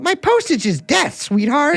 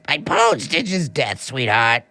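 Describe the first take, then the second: First: It is said in a young man's voice. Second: It is said in a rough, grizzled voice.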